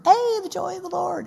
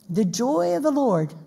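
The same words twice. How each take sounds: First: Hammed-up sitcom character impression; Goober. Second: Said in the usual way. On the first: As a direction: put on a goofy, high-pitched happy voice. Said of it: "I do it in his voice". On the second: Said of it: "I don't know why I do it in his voice".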